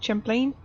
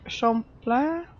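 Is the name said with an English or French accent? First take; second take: English; French. First: It is said with an English accent. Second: It is said with a French accent. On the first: "more like English accent" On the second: "like some sort of French"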